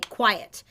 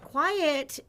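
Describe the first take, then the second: First: It is said in a firm, affirmative tone. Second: It is said in a soft, unassertive tone.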